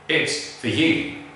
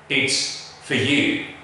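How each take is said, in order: First: The word 'for' is reduced to a schwa. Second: The word 'for' is reduced to a schwa.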